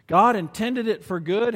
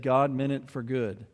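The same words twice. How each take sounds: First: "God" lifted high and louder, like a mantra; mantra-like emphasis. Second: Said in the usual way. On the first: Shown as a demonstration. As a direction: say "God intended it for good" as a lifelong mantra, punching "God". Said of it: "has become a mantra for his life". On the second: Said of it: "and he said".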